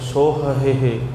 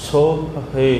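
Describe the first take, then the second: First: The word is said with three h sounds. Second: The word is said with two h sounds. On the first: The speaker calls it wrong. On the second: The speaker calls it right.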